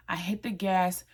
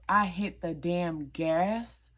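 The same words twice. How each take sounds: First: Said in the usual way. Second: Slow, weighty stress on "damn gas", with "gas" drawn long; drawn-out emphasis. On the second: Real, not acted. Emphatic retelling of speeding off.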